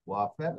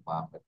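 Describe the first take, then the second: First: ওয়াফের with a rounded English w; English w sound. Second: বাফের with a b sound, German style. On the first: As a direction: say ওয়াফের starting on w. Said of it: "বাফের হয়ে গেছে ওয়াফের". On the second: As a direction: say বাফের starting on b. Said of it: "তেদেস্কো ভাষায়". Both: Shown as a demonstration.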